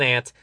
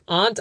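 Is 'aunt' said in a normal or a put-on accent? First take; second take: normal; put-on. First: The word is said in a normal accent. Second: The word is said in a put-on accent. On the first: It is the speaker's own usual way of saying it. The speaker calls it right. "All right, fine" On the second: It imitates the character's way of speaking. The speaker calls it wrong. "why saying aunts like that?"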